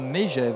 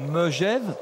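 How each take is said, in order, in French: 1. La première voyelle est un 'ay' fermé. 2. La première voyelle est un son schwa doux. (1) "pas Mégève" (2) "Megève, pas Mégève"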